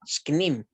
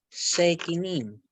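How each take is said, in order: First: The s and k join with no vowel. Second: A short e vowel separates the s and k. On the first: The speaker calls it right. "yo pronuncio sknim" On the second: The speaker calls it wrong. "y no sekinim"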